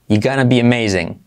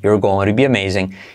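First: Both you're and gonna are contracted. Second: Only you are is contracted to you're. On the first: "Contraerlo todo así" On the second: "Pero también puedes contraer"

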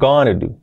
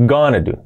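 First: 'Going to' is said fast, reduced to 'gonna'. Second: The same.

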